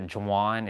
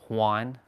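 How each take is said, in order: First: The word begins with a J sound. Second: The word begins with an H sound. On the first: The speaker calls it wrong. "the J is uh, usually pronounced like an H. Like instead of a Juan" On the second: The speaker calls it right. "it's it's Juan"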